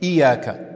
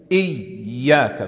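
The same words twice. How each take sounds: First: The y sound is short and single. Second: The y sound is held long and doubled. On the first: The speaker calls it wrong. "Du sagst nicht Iyaka" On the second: The speaker calls it right. "Das sind zwei Ja"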